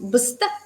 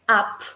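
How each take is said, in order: First: The consonant is a voiced b sound. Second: The consonant is a voiceless p sound. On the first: The speaker calls it wrong. "vas a querer leerlo como bst" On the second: The speaker calls it right. "en realidad la B se lee como p"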